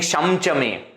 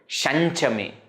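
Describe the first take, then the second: First: The nasal before cha is an m sound. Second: The nasal before cha is an n sound. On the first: "We are not saying Shamcha me" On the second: "Cha Anunasika"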